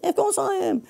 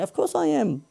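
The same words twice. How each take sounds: First: Much higher, hammed-up stand-up lilt peaking on "course"; Seinfeld inflection again. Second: Higher, sing-song stand-up lilt on "course"; Seinfeld inflection. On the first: Host repeating his quip, exaggerated Seinfeld-style lilt. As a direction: overdo the sitcom comedian's rhetorical bounce. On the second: Retold or imitated. Host answering his own pitch question, Seinfeld-style lilt. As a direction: rhetorical quip with a sitcom comedian's bounce. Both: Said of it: "I did the inflection like Seinfeld".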